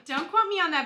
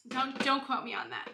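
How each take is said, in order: First: "quote" punched high and loud; louder, higher "Don't quote me on that"; playful emphasis. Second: Said in the usual way. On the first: Real, not acted. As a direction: hit "quote" hard, teasing. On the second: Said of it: "Don't quote me on that, bestie".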